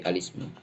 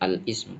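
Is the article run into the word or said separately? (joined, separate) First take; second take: joined; separate. First: The article runs straight into the word. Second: The article is said apart from the word. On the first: The speaker calls it right. "tapi alismu" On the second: The speaker calls it wrong. "jangan jangan al ismu, bukan"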